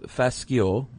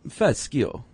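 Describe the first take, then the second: First: It is said plainly, without an Italian accent. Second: It is said with an Italian accent.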